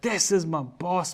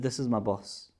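First: It is said in a passionate, excited tone. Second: It is said in a plain, flat tone.

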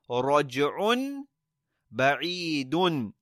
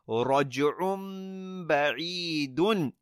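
First: The first word ends in an n sound. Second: The first word ends in an m sound. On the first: The speaker calls it wrong. "We don't say raj'un ba'idun. It's difficult to join both of them like that" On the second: The speaker calls it right. "But if we say raj'um ba'idun, it's much easier"

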